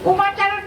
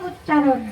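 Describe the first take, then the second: First: The word begins with the sounds 'uma'. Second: The word begins with the sounds 'ucch'. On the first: The speaker calls it wrong. "উমাচারণ নয়" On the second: The speaker calls it right. "বলেন উচ্চারণ"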